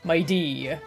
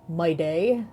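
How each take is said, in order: First: The second syllable sounds like 'dee'. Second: The second syllable sounds like 'day'. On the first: The speaker calls it right. "Mide is pronounced mighty except with a D instead of T" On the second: The speaker calls it wrong. "I thought it was pronounced my day too until they pronounced it in the story"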